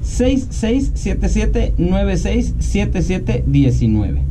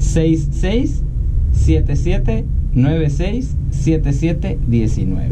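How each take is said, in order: First: The number is said at a fast pace. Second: The number is said at a slow pace.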